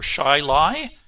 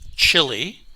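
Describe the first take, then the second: First: It starts with sh and sounds like shy-lee. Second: It is said like the word chilly. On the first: This is how the town's name is really said. The speaker calls it right. "is actually pronounced Shiley" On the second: This is how an outsider would read the name. The speaker calls it wrong. "as I would pronounce it"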